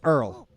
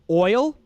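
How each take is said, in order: First: The vowel sounds like 'ur' with an R. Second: It is said with a plain standard vowel.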